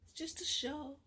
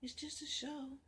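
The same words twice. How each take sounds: First: Said in the usual way. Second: Whispered, hushed repeat of "just a show". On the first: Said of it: "as she say". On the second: Acted. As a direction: say it again under your breath.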